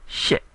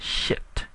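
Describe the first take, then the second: First: "shit" cut off with no final T sound; Burmese eight, no T. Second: "shit" with a hard final T, like the English swear word; wrong English-style shit. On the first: Teacher repeating the right Burmese eight, "shit" with no T. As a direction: drop the T at the end of "shit". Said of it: "One more time". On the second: Teacher repeating the wrong version, "shit" with a final T. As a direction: finish "shit" on a clear T. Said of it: "One more time, it's not shit". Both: Shown as a demonstration.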